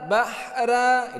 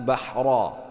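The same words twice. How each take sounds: First: The r sound is light and thin. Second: The r sound is heavy and thick. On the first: The speaker calls it wrong. "bahra itu salah" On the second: The speaker calls it right. "ra dibaca tebal ya"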